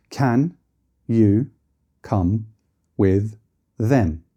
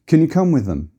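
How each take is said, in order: First: Can, you, come, with them each said apart with full vowels; one word at a time; strong forms word by word. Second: Can you come with them said smoothly with can and them reduced; flowing, reduced vowels; weak forms. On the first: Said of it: "if it was standing alone". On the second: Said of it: "change a vowel to be less noticeable". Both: Shown as a demonstration.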